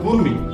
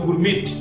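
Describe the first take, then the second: First: The word ends without any t sound. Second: A t sound is pronounced at the end. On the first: The speaker calls it right. "Silent হওয়ার কারণে উচ্চারণ হবে গুরমি" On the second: The speaker calls it wrong. "বানানটার অনুসারে উচ্চারণটা হচ্ছে গুরমিট"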